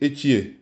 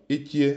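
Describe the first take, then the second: First: "et qui est" said flat with the tone not rising at the end; teacher models the wrong way to say "et qui est"; wrong tone, falling. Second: "Et qui est?" with the tone rising on "qui"; teacher models the correct present tense, "Et qui est?" rising on "qui"; right rising tone. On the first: Shows the mistake, "et qui est" with no rising tone at the end. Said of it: "c'est pas bon". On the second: Corrects the student, "Et qui est?" with rising "qui". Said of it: "Parce qu'on est au présent". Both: Shown as a demonstration.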